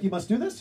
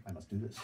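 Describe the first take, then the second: First: Rising, louder disbelief; louder echo with a rising tune; incredulous question. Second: Lower, quieter, matter-of-fact; softer lower reply; flat insistence. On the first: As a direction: ask it like you can't believe it. Incredulous echo of his line. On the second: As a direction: state it as simple fact. Stranger's calm insistence. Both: Retold or imitated.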